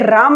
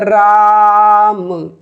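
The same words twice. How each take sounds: First: The vowel is said short and plain. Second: The vowel is stretched out long.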